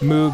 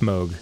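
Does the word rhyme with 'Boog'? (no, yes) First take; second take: yes; no. First: The vowel rhymes with Boog. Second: The vowel does not rhyme with Boog. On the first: This pronunciation follows the spelling. "Moog is how it's spelled and it's way more cuter and more fun to say" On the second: This is the technically correct pronunciation. "Technically it's Moog"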